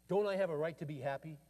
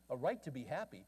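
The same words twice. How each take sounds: First: A touch of angry frustration, quoted; mildly heated retold protest; frustrated demand. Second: Said in the usual way. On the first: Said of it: "frustrated and angry".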